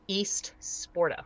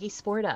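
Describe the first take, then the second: First: The word 'East' is clearly pronounced separately. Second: The first part is run together as 'Esporta'. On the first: It means Eastern sports. The speaker calls it right. "like Eastern sports" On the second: Someone else said it this way. The speaker calls it wrong. "She's like"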